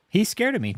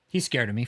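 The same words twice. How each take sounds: First: Higher, louder mock bragging; mock boast. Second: Said in the usual way. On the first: Streamer mocking David's boast to chat, hammed-up. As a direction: puff up and mock his boast.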